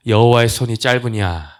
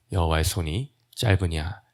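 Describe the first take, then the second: First: Loud, higher-pitched divine rebuke; raised rhetorical challenge. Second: Said in the usual way. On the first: Acted. 하나님의 말씀을 높여 인용. (목소리를 높여 꾸짖듯 되묻기)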